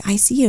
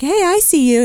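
First: Lightly voiced reply of a spirit; spirit's reply. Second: High-pitched retold hello; acted-out greeting. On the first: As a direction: answer back, only slightly set apart. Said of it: "And he was like". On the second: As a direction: call a high, light greeting to a visitor. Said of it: "and I was like".

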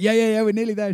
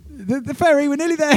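First: Quick reassurance. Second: Much higher, louder repeat to be heard. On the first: First answer to ferry lady. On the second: Repeating to ferry lady on bad line, higher and louder. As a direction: shout it again down the phone. Repeating as she can't hear. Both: Retold or imitated.

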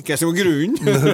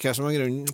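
First: "grunnen" pushed out high and loud; higher, forceful question landing on "grunnen"; stress on grunnen. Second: Said in the usual way. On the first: Shown as a demonstration. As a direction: repeat it louder, hitting "grunnen". Repeats the question emphatically.

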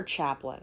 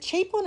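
First: Chaplin as CHAP-lin; short-a pronunciation. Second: Chaplin as CHAY-plin; long-a pronunciation. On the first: Asking co-host which is right, Chaplin as CHAP-lin. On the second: Asking co-host which is right, Chaplin as CHAY-plin. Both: Shown as a demonstration. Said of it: "is it Chaplin or Chaplin".

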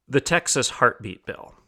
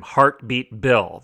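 First: Said in the usual way. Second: Heartbeat drawn out slowly and firmly; weighty, slow emphasis on Heartbeat; stress on Heartbeat. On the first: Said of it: "emphasize that word one more time". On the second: Shown as a demonstration. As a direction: hit Heartbeat hard, both words slow and deliberate. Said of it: "I want to emphasize that word".

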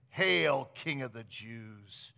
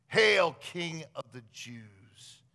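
First: Sarcastic. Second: Sarcastic mockery. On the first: Retold or imitated. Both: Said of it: "then sarcastically declaring".

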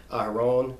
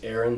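First: "Aharon" said as ah-ha-RONE; original name pronunciation. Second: "Aaron" said as AIR-un; two-syllable English "Aaron"; familiar English pronunciation. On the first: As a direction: open ah starting "Aharon", long o at the end. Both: Shown as a demonstration. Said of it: "we know him as Aaron".

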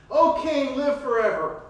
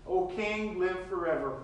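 First: Loud, higher mock royal greeting; sarcastic hail to the king. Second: Said in the usual way. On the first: Daniel greeting the king with sarcasm. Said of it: "Maybe there was some sarcasm there".

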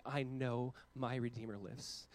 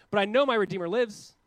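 First: Soft, very slow and low; quiet and slow. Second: Loud, high cry of faith; loud declaration. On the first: Real, not acted. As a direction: let it sink in softly. Quiet restatement of the creed. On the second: Retold or imitated. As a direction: proclaim it boldly with a rising end. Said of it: "Job goes".

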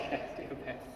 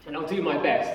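First: Soft, breathy laugh, almost whispered, quick. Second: Said in the usual way. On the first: Real, not acted. Warden repeats his promise to himself with a nervous whispered laugh. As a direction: laugh it under your breath to yourself.

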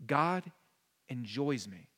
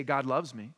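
First: "enjoys" dropped low and softer, set apart after a pause on "God"; soft, weighted enjoys. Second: Said in the usual way. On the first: Shown as a demonstration. Pastor contrasting phrases for his congregation, softly stressing "enjoys". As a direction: lean into "enjoys", slow and soft. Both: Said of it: "there's something different about saying".

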